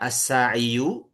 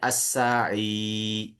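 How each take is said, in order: First: The word ends with a final 'u' vowel. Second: The word ends on 'i' with no final vowel. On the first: This is the theoretical form with the case ending present. "secara teori itu dianggap ada" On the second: This is how the word is actually read aloud. "sudah saja dibacanya as-sa'i gitu"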